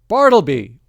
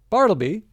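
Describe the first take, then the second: First: The name is called in a louder voice. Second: The name is called at normal volume.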